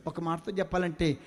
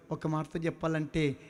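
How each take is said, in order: Both takes have the same delivery.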